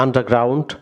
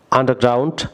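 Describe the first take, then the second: No difference in how they are said.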